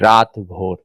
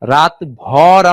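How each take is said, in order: First: The second word has a rounded o vowel. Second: The second word has an open a vowel. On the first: The speaker calls it right. "কিন্তু আমরা পড়ি কি রাত ভোর" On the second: The speaker calls it wrong. "রাত ভর আমরা পড়ি না"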